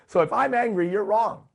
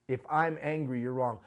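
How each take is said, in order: First: Higher and louder, a hammed-up angry claim; indignant version; loud mock indignation. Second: Said in the usual way. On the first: Shown as a demonstration. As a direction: throw it out like an offended know-it-all. Repeats the quoted line twice.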